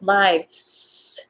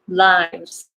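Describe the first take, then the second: First: The final consonant is voiceless, like S. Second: The final consonant is voiced, like Z. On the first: The speaker calls it wrong. "Sounds like S" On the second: The speaker calls it right. "try to pronounce it Z"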